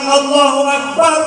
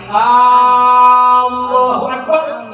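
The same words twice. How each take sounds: First: The first vowel of Allah is short. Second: The first vowel of Allah is drawn out long. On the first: God is the greatest. The speaker calls it right. "Allah Maha Besar" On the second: It asks whether God is the greatest. The speaker calls it wrong. "lamun panjang Allahu Akbar itu timbul istifham"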